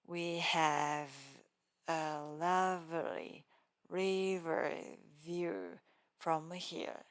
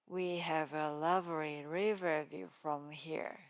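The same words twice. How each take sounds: First: The V sounds are strongly exaggerated. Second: The V sounds are said naturally.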